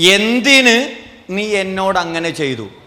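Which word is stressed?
എന്തിന്. The stress falls on the word എന്തിന്. The reason for the act is the issue. "എന്തിന് ചെയ്തു എന്നുള്ളതാണ് പ്രശ്നം"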